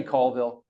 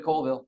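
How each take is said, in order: First: "Colville" with open first vowel, like "call-vil"; correct local pronunciation. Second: "Colville" with long o, like "coal-vil"; common mispronunciation. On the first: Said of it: "it's actually Colville". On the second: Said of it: "raise your hands in shame if you said Colville". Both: Shown as a demonstration.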